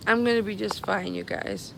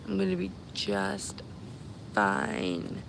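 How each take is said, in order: First: Said in the usual way. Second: Drawn-out reassurance. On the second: Real, not acted. Streamer reassuring the followers it will be fine, drawn out. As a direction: stretch out "just", then let "fine" sink.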